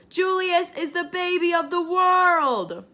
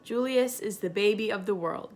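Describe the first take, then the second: First: It is said more loudly and forcefully. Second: It is said at a normal, quieter volume.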